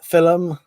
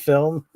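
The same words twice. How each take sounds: First: The word is said in a Northern accent. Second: The word is said in a standard accent. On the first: "we Northerners say film" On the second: "instead of film"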